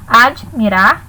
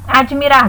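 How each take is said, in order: First: "Admirar" split after "Ad", then "mirar"; syllable separation. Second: Said in the usual way. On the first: Shown as a demonstration. Teacher showing students how the word separates, split into syllables. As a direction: break "Admirar" with a short gap after the d. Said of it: "como fica a separação?". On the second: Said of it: "do mesmo jeito".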